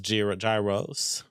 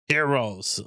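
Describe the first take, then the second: First: The word starts with a hard G sound. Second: The word starts with an H sound. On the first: The speaker calls it right. "I'll pronounce the G" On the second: The speaker calls it wrong. "people are saying it's heroes"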